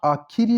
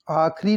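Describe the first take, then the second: First: Said in the usual way. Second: आखिरी cut to two syllables, "aakh-ri"; mispronounced आखिरी. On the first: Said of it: "आखिरी लिखा जाएगा". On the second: Shown as a demonstration. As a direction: say आखिरी as "aakhri". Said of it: "आखिरी नहीं होता".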